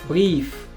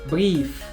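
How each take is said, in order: The two takes are said the same way.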